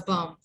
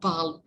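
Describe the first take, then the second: First: The L sound is silent. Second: The L sound is pronounced. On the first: The speaker calls it right. "L is silent" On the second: The speaker calls it wrong. "It's not balm"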